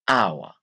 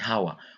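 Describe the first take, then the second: First: The word begins with a vowel, no H sound. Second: The word begins with an audible H sound. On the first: The speaker calls it right. "it is a silent H" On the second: The speaker calls it wrong. "We don't say hour"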